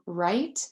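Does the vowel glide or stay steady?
glide. The vowel glides as in standard American. "right, as in that's right"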